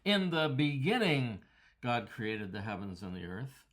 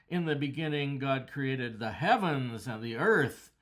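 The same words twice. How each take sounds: First: The stress falls on the word beginning. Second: The stress falls on heavens and earth. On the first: The focus is on when it happened. "put the emphasis on the adverb at the beginning of the verse" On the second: The focus is on what was made. "put the emphasis on the works he made"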